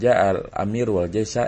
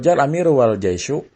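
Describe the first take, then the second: First: The last word ends with an 'a' vowel. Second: The last word ends with an 'u' vowel. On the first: They definitely arrived together. "ini memastikan bahwasanya si amir ya, pemimpin dan tentaranya datangnya barengan" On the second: The order of arrival is left open. "kita marfukan karena jadi atof"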